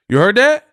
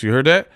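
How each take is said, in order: First: Louder, much higher rising question; incredulous repeat. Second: Said in the usual way. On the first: Real, not acted. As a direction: press the question home, pitch shooting up. Repeats question in disbelief at clip.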